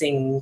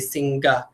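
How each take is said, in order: First: The word ends on ng with no g. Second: A hard g and vowel follow the ng. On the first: The speaker calls it right. "It's just sing" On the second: The speaker calls it wrong. "I don't say singa"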